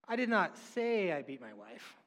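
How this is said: The stress falls on the word say. The speaker may have implied it without saying it. "I did not say that. Well, maybe I"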